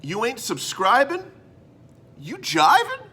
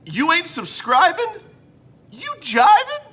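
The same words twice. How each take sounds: First: Higher, sing-song catchphrase; jive slogan. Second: Much higher, louder slogan with rising ends; jive slogan. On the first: Host pitches his new motto, playful jive voice. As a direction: sell the rhyme like a jive hype man. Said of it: "I came up with this beauty". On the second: Host announces the motto of the episode, hammed-up jive shout. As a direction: belt the catchphrase as a hammed-up hype man. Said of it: "today's motto of the episode". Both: Acted.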